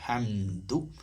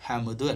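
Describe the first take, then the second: First: The final 'du' sound comes out clearly and fully. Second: The final 'du' sound is weak and clipped. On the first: The speaker calls it right. "ദാലൊക്കെ പറയുമ്പോൾ ദൂ തന്നെ വരണേ" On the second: The speaker calls it wrong. "അല്ല"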